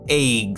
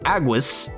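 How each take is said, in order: First: It is said as the one-syllable word eggs. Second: It is said as the two-syllable word aguas. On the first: "The game pronounces it eggs" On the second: "can only be properly pronounced as Aguas"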